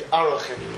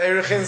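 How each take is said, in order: First: The word begins with an 'a' vowel sound. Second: The word begins with an 'e' vowel sound. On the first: This is the accurate pronunciation. The speaker calls it right. "to accurately pronounce it would be Arachin" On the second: This is the common popular pronunciation. The speaker calls it wrong. "people say Erechin"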